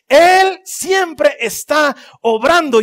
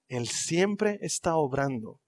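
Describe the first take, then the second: First: Higher, louder, very slow climax; building proclamation. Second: Soft, slow, low affirmation; soft refrain. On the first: Preacher proclaiming to the congregation at full force. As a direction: proclaim it at the peak. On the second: Preacher quietly affirming God is at work. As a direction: start the refrain almost softly. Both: Acted. Repeated sermon refrain building.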